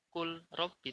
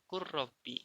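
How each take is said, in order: First: The L is clearly pronounced before the R. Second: The L merges into a doubled R sound. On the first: The speaker calls it wrong. "tidak dibaca kul robbi" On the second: The speaker calls it right. "langsung ke ro-nya"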